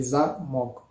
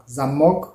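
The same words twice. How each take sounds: First: "zamok" with stressed "za", weak "mok"; stress on first syllable. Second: "zamok" with the weight on "mok"; stress on second syllable. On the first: Teacher contrasts the two words, this "zamok" stressed at the start. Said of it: "et pour le deuxième". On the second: Teacher contrasts the two words, this "zamok" stressed at the end. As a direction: punch the final syllable of "zamok". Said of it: "l'accent tonique est posé sur la deuxième syllabe". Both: Shown as a demonstration.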